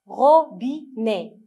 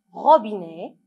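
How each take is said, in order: First: "robinet" slowly as RO, BI, NET; three separate beats in "robinet"; syllable by syllable. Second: Said in the usual way. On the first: Shown as a demonstration. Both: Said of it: "on va lire ensemble les mots".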